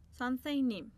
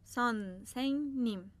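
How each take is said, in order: First: Said in the usual way. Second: سانسنگنیم said slowly and carefully, falling at the end; slow model word. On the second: Shown as a demonstration.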